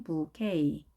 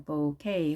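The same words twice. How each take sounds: First: "부케이" as boo-KAY; 'oo' variant. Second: "보케이" as boh-KAY; 'oh' variant. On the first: Teacher giving the main version, 'oo' vowel in "부케이". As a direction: say "부케이" with 'oo' in the first syllable. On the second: Teacher allowing an alternative, 'oh' vowel in "보케이". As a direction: say "보케이" with 'oh' in the first syllable. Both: Shown as a demonstration. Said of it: "부 대신에 오 하셔도 됩니다".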